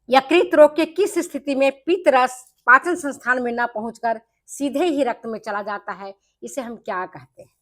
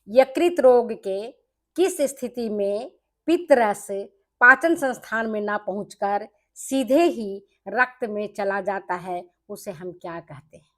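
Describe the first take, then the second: First: It is read at a quicker pace. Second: It is read slowly and deliberately.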